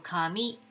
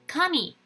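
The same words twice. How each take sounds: First: The pitch rises toward the second syllable. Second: The pitch falls after the first syllable. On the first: It means paper. "kami going up is a paper" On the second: It means god. "Kami is a god"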